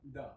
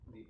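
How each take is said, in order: First: The word ends in a short 'uh' vowel. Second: The word ends in a long 'ee' vowel. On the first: It comes before a word starting with a consonant. "किसी consonant word के पहले ... हम टीएचई को पढ़ते हैं द" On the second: It comes before a word starting with a vowel. "वॉवेल से शुरू होने वाले वर्ड के पहले ... उच्चारण होता है आपका दी"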